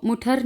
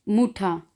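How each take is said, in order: First: मुठर with the final R sounded; R pronounced at the end of मुठर; learner's mispronunciation. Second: मुठा ending in an open "aa", no R; vowel ending on मुठा; final R as A. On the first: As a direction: say मुठर ending on a hard R. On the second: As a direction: say मुठा with the last R turned to "ah". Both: Shown as a demonstration. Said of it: "इसको मुठर नहीं पढ़ना".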